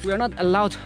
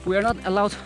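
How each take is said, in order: Both takes have the same delivery.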